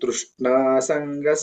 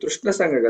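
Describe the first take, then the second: First: The vowel after 'shn' is long. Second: The vowel after 'shn' is short. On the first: The speaker calls it right. "ష్నాకి దీర్ఘం ఉంది" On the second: The speaker calls it wrong. "అది తృష్ణ సంఘ కాదు"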